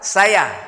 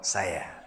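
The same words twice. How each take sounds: First: The word is said on a level pitch. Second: The word is said on a low pitch. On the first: "Kalau datar" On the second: "Kalau bawah"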